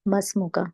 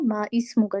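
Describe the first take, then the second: First: Ma and ismu run together as masmu. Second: The vowel of ismu is sounded separately. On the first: "आप इसको मस्मु का भी पढ़ सकते हैं" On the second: "ये जो इसम का अलिफ है इसको प्रोनाउंस कर सकते हैं"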